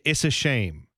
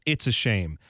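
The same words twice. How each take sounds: First: The T is dropped, so it sounds like "is". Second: The T is clearly pronounced in "it's". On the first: "It didn't sound like he said it's. He said is" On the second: "instead of it's a shame"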